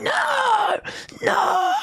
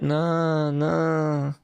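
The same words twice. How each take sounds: First: It is said forcefully, as if fighting back. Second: It is said weakly and passively.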